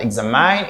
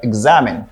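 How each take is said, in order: First: The middle syllable sounds like 'mine'. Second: The middle syllable sounds like 'men'. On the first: The speaker calls it wrong. "Here we say men, not mine. ... it is not examine" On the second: The speaker calls it right. "it is pronounced like examine"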